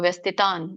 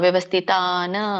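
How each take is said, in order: First: The word ends on a bare consonant sound. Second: The word ends with an added vowel sound. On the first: The speaker calls it right. "ವ್ಯಂಜನ ಇರೋದ್ರಿಂದ ನಾವು ಅರ್ಧನ ಹೇಳ್ಬೇಕು" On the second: The speaker calls it wrong. "ಅಂದ್ರೆ ಆ, ಅಲ್ಲ"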